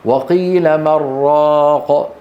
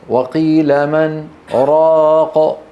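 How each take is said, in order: First: من merged into راق as مراق, with no pause; the other reciters' reading, without the pause. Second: Slow recitation with a short break after من before راق; pause after min. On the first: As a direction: run من straight into راق, doubling the r. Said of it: "لكن غيره لم يروي ذلك". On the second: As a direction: stop briefly on من, then say راق. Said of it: "هكذا روى حفص". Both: Shown as a demonstration.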